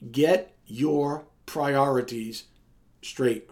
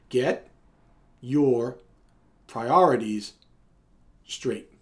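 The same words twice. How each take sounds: First: It is said at a normal speed. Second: It is said slowly, word by word.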